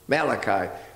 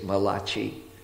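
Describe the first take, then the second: First: The name is said in the standard English way. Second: The name is said the way Italians say it.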